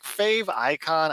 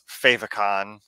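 First: It is said as 'fave' plus 'icon'. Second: It is said to rhyme with 'emoticon'. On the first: "And it's like fave icon" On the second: "in my head, it's favicon, the same way like emoticon"

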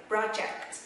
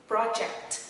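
Both takes have the same delivery.

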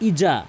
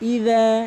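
First: The middle consonant is a 'j' sound. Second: The middle consonant is a 'dh' sound. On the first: The word loses its intended meaning. The speaker calls it wrong. "ইজা মানে এই রালের জায়গায় জিম এনে উচ্চারণ করে" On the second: The word keeps its intended meaning. The speaker calls it right. "রালটি জিব্বার আগা এবং দাঁতের আঙ্গার সঙ্গে"

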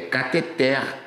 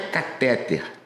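First: The stress is on the last syllable. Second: The stress is on the middle syllable. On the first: The speaker calls it right. "É cateter" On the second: The speaker calls it wrong. "não é catéter. Não tem esse acento"

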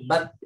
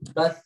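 First: The final sound stops abruptly with no airflow. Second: The final sound continues with air flowing out. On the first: The speaker calls it wrong. "jangan bat" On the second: The speaker calls it right. "tapi bat. Tetap ada ngalir"

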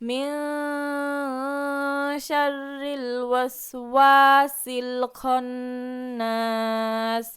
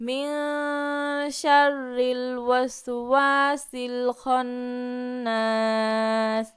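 No difference in how they are said.

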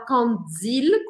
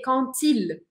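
First: The words are linked with a D sound. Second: The words are linked with a T sound. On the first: The speaker calls it wrong. "Eu não vou falar cantil, com D" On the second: The speaker calls it right. "mas com T"

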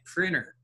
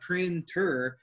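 First: The T after the N is dropped. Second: The T after the N is clearly pronounced. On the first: The speaker calls it right. "It's like printer, right?" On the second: The speaker calls it wrong. "It's not printer"

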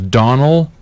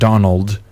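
First: The name ends without a final d sound. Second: The name ends with a final d sound. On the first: The speaker calls it right. "His name is Donald ... Spelled like Donald without the D" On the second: The speaker calls it wrong. "not Donald"

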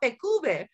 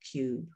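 First: The final e is pronounced as a vowel. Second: The final e is silent, vowel long. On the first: The speaker calls it wrong. "because we pronounce all the letters and the sounds of the language" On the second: The speaker calls it right. "the vowel's going to be long and the E will be silent"

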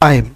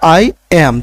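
First: It is said as one syllable with the vowel gliding. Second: It is said as two separate words. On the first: "উচ্চারণটা দাঁড়াচ্ছে আইম" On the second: "আগে আমরা কি বলতাম যে আই এবং অ্যাম বলতাম"

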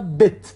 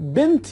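First: The word is said without an n sound. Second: The word is said with an n sound. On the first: "نون گاهی گاهی تلفظ نمیشه" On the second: "بنت یا بت"

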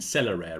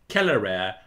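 First: Celere is said with traditional English sounds. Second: Celere is said with classical Latin sounds.

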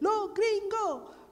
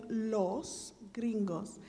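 First: The final s sounds are dropped. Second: The final s sounds are clearly pronounced. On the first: "they would say lo gringo" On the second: "instead of saying los gringos"

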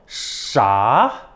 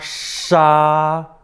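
First: It is said with the second tone. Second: It is said with the first tone.

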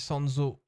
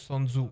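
First: The name ends with an 'oh' vowel. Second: The name ends with an 'oo' vowel. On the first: The speaker calls it right. "Je crois que ça se dit Sanzo" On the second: The speaker calls it wrong. "et non Sanzu"

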